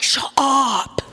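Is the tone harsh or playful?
playful. It sounds like a light, playful exclamation.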